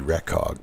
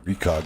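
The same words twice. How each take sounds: First: The first part sounds as in recognition. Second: The first part sounds unlike in recognition. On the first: This is the technically correct form. "The full word is recognition, right? So, I mean, it should be Recog" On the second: This form feels natural to say. "Recog sounds right. Even though I'm sure technically it isn't"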